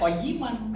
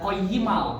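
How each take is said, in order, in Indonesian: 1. Kata ini diakhiri dengan bunyi n yang jelas. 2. Bunyi n di akhir menyatu menjadi bunyi l. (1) "Jangan dibaca koyiman" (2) "dimasukin lam, dibacanya koyimal"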